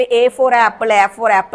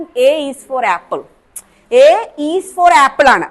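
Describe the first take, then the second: First: Put-on A for apple run together in the old singsong rote style. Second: A is for apple, slow, each word spaced, "is" clearly said; correct full phrase. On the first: Teacher recalls the school rote chant, lightly singsong. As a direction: chant "A for apple" the way we learned it as kids. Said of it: "A, A is for ആണ് apple എന്നാ പറയേണ്ടത്". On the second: Teacher drills trainees on the correct full phrase, slow and firm. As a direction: spell out "A is for apple" slowly and firmly. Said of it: "A is for ആണ് apple എന്നാ പറയേണ്ടത്". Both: Shown as a demonstration.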